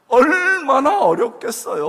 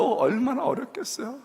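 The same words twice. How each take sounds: First: 얼마나 stretched, much higher and louder, slow; stress on 얼마나. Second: Said in the usual way. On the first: Real, not acted. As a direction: lean hard on 얼마나, slowly. Emphatic repeat.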